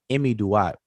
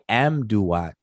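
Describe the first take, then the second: First: It starts with 'imi', four syllables in all. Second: It starts with 'am', three syllables in all. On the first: This is the original form, meaning that which is in the Duat. The speaker calls it right. "but it's really Imi Duat" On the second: This is the commonly used form. The speaker calls it wrong. "they say Amduat"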